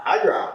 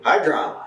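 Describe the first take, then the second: First: "high drama" leaps high in pitch, falling; theatrical, high-pitched "high drama"; dramatic high repeat. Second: Said in the usual way. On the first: Shown as a demonstration.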